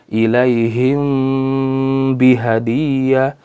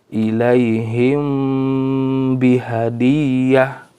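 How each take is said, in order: Both takes have the same delivery.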